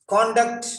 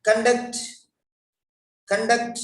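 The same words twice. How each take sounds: First: "Conduct" as KON-duct with a full o; "Conduct" said high with an open o on CON; noun conduct. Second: "conduct" as kən-DUCT, higher pitch; "conduct" weighted on DUCT, kun-DUCT; verb conduct. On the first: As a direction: stress the first syllable of "Conduct". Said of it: "is a noun". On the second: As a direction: shrink the first vowel of "conduct" to a schwa. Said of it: "is a verb". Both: Shown as a demonstration.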